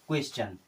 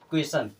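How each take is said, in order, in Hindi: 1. अंत 'ch' ध्वनि से बोला जाता है। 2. अंत 'sh' ध्वनि से बोला जाता है। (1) "इसको हम सन नहीं पढ़ते हैं" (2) "अगर इसको हम सन पढ़ते तो क्या हो जाता?"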